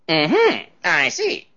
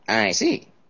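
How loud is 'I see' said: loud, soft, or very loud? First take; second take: loud; soft. First: It is said with a raised, louder voice. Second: It is said at a fairly soft volume. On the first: The statement is not believed at all. "she'd raise the tone of her voice" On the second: The statement might be true but is probably a lie. "it's possible it could be true, but it's probably a lie"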